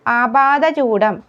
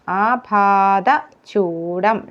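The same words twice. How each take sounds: First: ആപാദചൂഡം in one quicker run; word presented first. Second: ആപാദചൂഡം very slow, part by part; correct form. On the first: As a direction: present ആപാദചൂഡം before correcting it. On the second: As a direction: stretch ആപാദചൂഡം to show each consonant. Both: Shown as a demonstration. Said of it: "ഢായിലെ വ്യത്യാസമാണ്".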